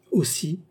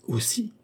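First: Polite echo, pitched up; mild, civil confirmation; polite repetition. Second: High, rising, softer startled question; small frightened query; alarmed exclamation. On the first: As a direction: repeat it courteously, unperturbed. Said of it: "répéta poliment Cagliostro". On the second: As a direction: echo it in sudden alarm, pitch shooting up. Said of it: "s'écria Oliva en pâlissant". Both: A narrator's reading.

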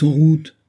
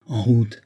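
First: High, loud cry to move off; shouted order. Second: Mildly raised call to set off; exclaimed order. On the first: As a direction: call the order out louder and higher. (ordre crié, voix haute et forte) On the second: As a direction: give the order with a slight lift. (ordre lancé, voix un peu haussée) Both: A narrator's reading. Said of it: "s'écria Banks".

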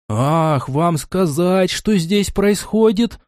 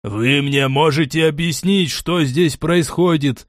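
First: High, drawn-out indignant echo; flaring anger. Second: Understated barked demand, slow at the end; mild bark. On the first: Яхиль explodes back at Кастет, high and incensed. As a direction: throw the question back, slow and high-pitched. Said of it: "взбеленился Яхиль". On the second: Кастет demands an explanation, mildly barking. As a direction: demand answers with restrained force. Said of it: "гаркнул Кастет". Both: A narrator's reading.

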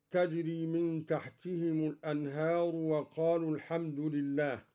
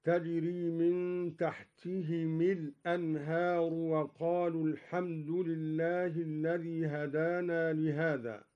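First: Measured recitation, تحتهم ending -himu; damma on meem. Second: Measured recitation, تحتهم ending -himi; kasra on meem. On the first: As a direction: recite تحتهم الأنهار as tahtihimu l-anhar. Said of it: "بكسر الميم مع الهاء". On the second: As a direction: recite تحتهم الأنهار as tahtihimi l-anhar. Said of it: "بكسر الميم مع الهاء وصلا". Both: Shown as a demonstration.

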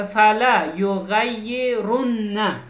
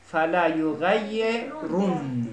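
First: یغیرن slow, ending on a full vowel after the doubled n; slow tajweed reading of یغیرن ending on a vowel; recited with final vowel. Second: یغیرن slow, stopping on a silent final n with no vowel; slow tajweed pause on یغیرن, final n silent; pausal form. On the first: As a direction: recite یغیرن keeping the fatha on the last nun. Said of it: "اینجا تشدیده اما بالاخره نون حرکت داره". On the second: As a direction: recite یغیرن in pause, dropping the last vowel. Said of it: "هنگام وقف ما باید حرکتش رو برداریم". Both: Shown as a demonstration.

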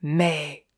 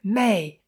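First: Lower, contained command; imperious breathed command. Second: Mild, narrated cry of her name. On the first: Jim, eyes in her eyes, low imperious command. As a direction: press the name on her, imperiously. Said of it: "souffla impérieusement". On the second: Jim seizes the clairvoyant, mild cry. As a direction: call her name, held back in volume. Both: A narrator's reading.

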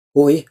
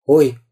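First: Short startled exclamation; mild storybook jolt. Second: Teasing copy of a startled cry; short mock exclamation; mocking echo. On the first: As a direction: give a small start of fright. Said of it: "вздрогнул Карандаш". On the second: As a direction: mimic the little fright. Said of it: "передразнил кто-то". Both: A narrator's reading.

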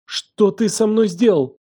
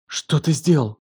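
First: High, slow horrified demand; trembling voice. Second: Mildly trembling accusation. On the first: Елена demands what he did to her, trembling. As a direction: draw it out high, close to panic. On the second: Елена confronts him in the morning, trembling. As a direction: ask it with a slight tremble. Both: A narrator's reading. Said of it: "Голос её дрожал".

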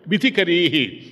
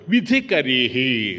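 First: Said in the usual way. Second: Slow drawn out. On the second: Shown as a demonstration. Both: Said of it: "చూడు తమాషా".

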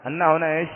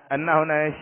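The two takes are said the same way.

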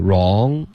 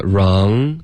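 First: "wrong" fading into "raw", no ng; missing ending. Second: "wrong" with a full, sounded ng; careful model of "wrong", ng held; full ending. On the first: Retold or imitated. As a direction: leave the ng off "wrong". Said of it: "刚刚变成wrong". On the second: Shown as a demonstration. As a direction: finish "wrong" on a rounded nasal ending. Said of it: "稍微饱满一点".

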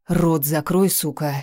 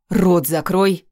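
First: Quiet growl. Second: Mild bark of «Рот закрой»; roaring bark. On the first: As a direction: growl it quietly, holding back rage. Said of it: "рыкнул тихо, сдерживаясь". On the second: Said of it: "рявкнул громогласно". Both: A narrator's reading.

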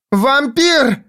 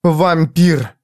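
First: Very high cried-out Вампир; shouting. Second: Higher, pointed accusation; accusing. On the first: Jiz shouts at Foyle while spinning, very high. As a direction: scream it at him across the corridor. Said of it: "крикнула она". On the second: Jiz accuses Foyle to his face, pointed. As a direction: hurl the word at him. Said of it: "повторила Джизбелла". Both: A narrator's reading.

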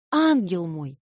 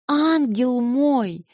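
First: Said in the usual way. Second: "ангел мой" stretched very slowly, higher and louder; drawn-out endearment. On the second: Acted. Alyosha begs Natasha, drawing out "ангел мой" slow, high and loud. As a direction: linger on "ангел мой", pleading.

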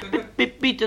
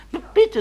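First: Very high stammered plea; a frightened boy's squeak; squeaky pupil. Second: Very high timid stammered plea; boy answering the teacher in a tiny high voice; squeaky pupil. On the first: Shy pupil answers again. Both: Acted.

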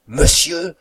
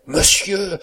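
First: High, loud, rising exclamation; aghast cry. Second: High, loud, falling cry; disarmed exclamation. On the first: Cook crushed at seeing her master, aghast high cry. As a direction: cry out high, with the end lifting. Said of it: "s'écrie la cuisinière anéantie". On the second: Valet caught mimicking his master, disarmed high cry that falls. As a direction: exclaim high, then let it drop. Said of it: "dit le frontin désarmé". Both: A narrator's reading.

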